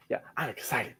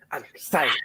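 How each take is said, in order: First: Hushed excited whisper; whispered excitement. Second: Excited. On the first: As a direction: whisper yelling it quietly. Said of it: "Do it". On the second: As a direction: say it out with real excitement. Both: Shown as a demonstration.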